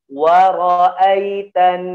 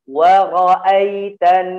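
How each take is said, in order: No difference in how they are said.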